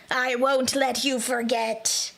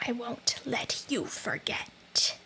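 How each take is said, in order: First: Strained ghost voice. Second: A slow menacing ghost whisper; ghostly whisper. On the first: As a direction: push a menacing rasp from the throat. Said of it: "That hurts my throat". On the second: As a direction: breathe it out like a ghost. Ghost voice, then hurts throat. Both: Acted.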